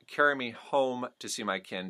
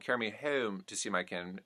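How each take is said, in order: First: The O in home is a conservative standard vowel. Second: The O in home sounds strongly twangy, Australian-like. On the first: "not the conservative O" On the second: "doesn't become"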